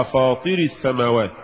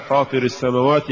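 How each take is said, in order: First: Quick faulty reading of فاطر السماوات; mispronounced recitation. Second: Said in the usual way. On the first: Shown as a demonstration. Interviewer asks a sheikh about فاطر السماوات, imitated wrong reading. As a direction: say فاطر السماوات as some readers misread it. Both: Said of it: "يقرأها".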